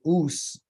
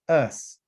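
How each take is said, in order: First: The vowel is a long oo sound. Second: The vowel is a short uh sound. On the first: The speaker calls it wrong. "You wouldn't say oos" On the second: The speaker calls it right. "you would say uh, uh, uh, us"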